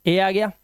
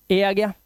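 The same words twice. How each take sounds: The two takes are said the same way.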